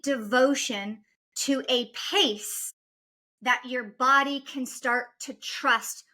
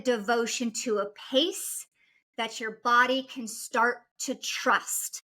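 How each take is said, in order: First: It is spoken at a slower, deliberate pace. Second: It is spoken at a normal, quicker pace.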